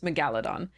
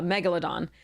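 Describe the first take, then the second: First: The stress is on a later syllable. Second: The stress is on the first syllable. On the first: The speaker calls it wrong. "the way I grew up saying it" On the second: The speaker calls it right. "the correct pronunciation is uh, megalodon"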